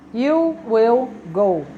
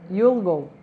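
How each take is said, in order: First: Will is said in full as a separate word. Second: Will is shortened and joined onto the pronoun. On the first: This is the formal form. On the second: This is the informal form.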